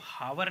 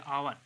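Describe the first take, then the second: First: The word starts with an h sound. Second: The word starts with a vowel, no h. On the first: The speaker calls it wrong. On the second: The speaker calls it right.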